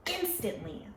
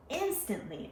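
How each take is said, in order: First: Said in the usual way. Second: Instantly lifted higher and stressed; emphatic repeat. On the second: Real, not acted. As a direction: hit instantly harder.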